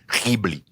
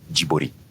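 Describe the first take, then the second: First: It starts with a rough guttural throat sound. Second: It starts with a soft j sound. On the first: This is the original Arabic way. "with the guttural phlegm" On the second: This is the Japanese way. "he calls it Jibori because you know he's Japanese"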